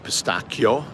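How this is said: It is pronounced with Italian sounds. "or as they say"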